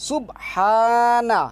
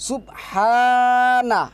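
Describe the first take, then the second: The two takes are said the same way.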